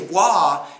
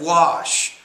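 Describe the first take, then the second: First: The word ends without its final sh sound. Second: The word ends with a clear sh sound. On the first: The speaker calls it wrong. "if you say wa instead of wash" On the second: The speaker calls it right. "instead of wash"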